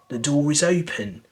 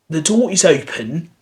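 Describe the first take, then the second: First: An r sound links door and is. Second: The words are joined without any r sound.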